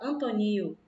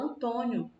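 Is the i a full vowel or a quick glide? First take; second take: full vowel; quick glide. First: The i is a full, separate vowel. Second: The i glides quickly into the o. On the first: The speaker calls it wrong. "a gente não fala Antonio" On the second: The speaker calls it right. "A gente fala Antônio ... O i, ele aparece bem rápido"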